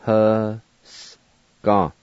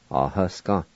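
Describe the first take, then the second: First: "Huska" slowly, long gap before the last syllable. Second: Said in the usual way. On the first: Shown as a demonstration. Teacher pronouncing set down for learners, syllable by syllable. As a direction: draw "Huska" out in separate pieces. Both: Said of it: "now I'll pronounce these words".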